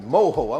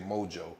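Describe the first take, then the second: First: The middle consonant is a breathy H sound. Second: The middle consonant is an English J sound. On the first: The speaker calls it right. "I'm glad I'm saying that right" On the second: The speaker calls it wrong. "Y'all know I want to say mojo"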